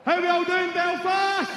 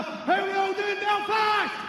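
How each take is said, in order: First: Higher, louder greeting to the crowd, held back a little; first crowd call. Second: Much higher, louder shout to the arena; louder crowd call. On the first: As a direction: open with a loud hello to the arena. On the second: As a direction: call out to the whole crowd for a bigger cheer. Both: Acted. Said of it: "Do you want me to do it again?".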